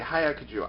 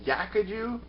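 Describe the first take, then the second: First: The word begins with an audible H sound. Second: The word begins without any H sound. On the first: "I know I'm saying it wrong" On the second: "Is the H silent?"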